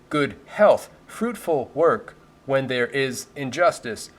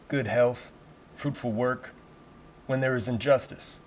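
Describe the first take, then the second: First: The words are clipped and separate, like a robot. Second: The words flow together in a deep, smooth voice. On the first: The speaker calls it wrong. "You don't want to sound like a robot" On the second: The speaker calls it right. "my version of a deep, sultry, meaningful voiceover"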